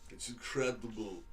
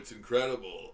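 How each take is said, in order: First: It is said flatly, without much feeling. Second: It is said with strong, lively feeling.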